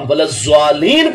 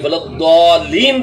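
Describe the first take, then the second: First: The heavy consonant is a z-like sound. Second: The heavy consonant is a d-like sound. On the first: The speaker calls it wrong. "दौद दी बजाय ज़ा करके पढ़े" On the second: The speaker calls it right. "दौद दी बजाय ज़ा करके पढ़े"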